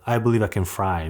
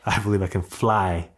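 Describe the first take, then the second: First: The last word starts with an R sound. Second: The last word starts with an L sound. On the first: The speaker calls it wrong. "they're not saying like" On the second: The speaker calls it right. "but like"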